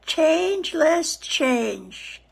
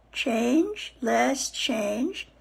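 First: Slow, falling on Changeless; channel name spelled out. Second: Slow, rising on Changeless; channel name repeated. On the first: Host naming her channel slowly, falling tune. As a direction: say it slowly so they remember. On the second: Host repeating her channel name slowly, rising tune. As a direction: repeat it gently with a rise. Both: Shown as a demonstration. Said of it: "Go on to my YouTube channel".

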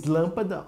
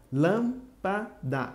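First: Said in the usual way. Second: "lâmpada" slowly as lâm, pa, da; split into syllables. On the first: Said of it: "Se eu separar". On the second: Shown as a demonstration. Teacher showing which syllable is strong, "lâmpada" split up. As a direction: leave gaps between the syllables of "lâmpada". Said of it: "Se eu separar, vai ficar assim".

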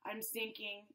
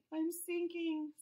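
First: "sinking" low and soft, fading. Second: Said in the usual way. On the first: Acted. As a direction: let "I'm sinking" drop low and soft. Fish sinks, said twice.

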